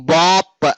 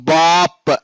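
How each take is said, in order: The two takes are said the same way.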